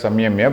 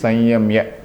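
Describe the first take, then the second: First: The first syllable ends in an m sound. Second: The first syllable ends in an n sound. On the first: "we sometimes call it samyamya" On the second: "the strict way is sanyamya"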